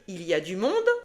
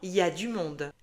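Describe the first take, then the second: First: Every syllable is pronounced fully and clearly. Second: Some sounds are dropped in casual speech. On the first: This is how it is written. "Tu vas lire" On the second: This is how people actually say it.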